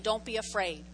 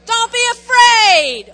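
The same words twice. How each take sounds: First: Said in the usual way. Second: Loud, slow commanding shout; firm command. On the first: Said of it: "where he gives them a command". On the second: Shown as a demonstration. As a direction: order it like you mean it. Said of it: "Say it like you mean it".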